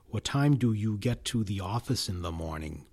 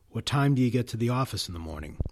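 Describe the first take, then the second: First: Function words like do are fully pronounced. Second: Function words like do are reduced, weak forms. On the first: "without function word weak forms" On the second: "more typically, the weak form would be produced"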